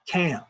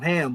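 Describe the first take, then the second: First: The word begins with a K sound. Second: The word begins with an H sound. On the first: This is the Hebrew dictionary form of the name. "it would actually be spelled C H A M, Cam" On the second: This is the common form of the name. "instead of ham"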